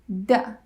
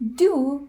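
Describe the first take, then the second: First: The word is said in a reduced form. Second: The word is said in its full form.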